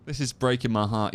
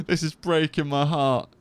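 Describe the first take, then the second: First: Said in the usual way. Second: Higher, slow, laughing mock heartbreak; mock heartbroken. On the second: Dad retelling his crying son, laughing mock heartbreak. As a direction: act heartbroken with a laugh, drawn out. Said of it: "And I was like".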